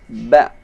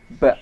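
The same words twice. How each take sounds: First: Firm, short BA without escaping air; no breath on BA. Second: BA with air escaping after the b; breath leaking on BA. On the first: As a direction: release BA from closed lips, holding back the breath. (ba tegas tanpa nafas keluar) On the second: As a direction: let breath slip out on the BA, as a faulty example. (ba salah, dengan nafas ikut keluar) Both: Shown as a demonstration. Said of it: "jangan sampai keluar nafasnya".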